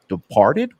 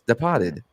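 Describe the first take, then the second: First: The r sound in the word is pronounced. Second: The r sound is dropped, New England style. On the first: The speaker calls it wrong. "you wouldn't say" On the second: The speaker calls it right. "No, it's Departed. ... the correct pronunciation"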